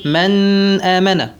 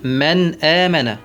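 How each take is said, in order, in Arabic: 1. النون مُطوّلة مع غنّة أنفية طويلة. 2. النون قصيرة دون غنّة أنفية زائدة. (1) "الغنة الناتجة عن المبالغة في الإظهار ... ما يصح أن نقول من آمن" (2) "الصواب نقول من آمن"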